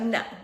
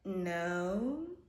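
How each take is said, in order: First: It is said in a plain, neutral way. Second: It is said evasively, like someone dodging a lie.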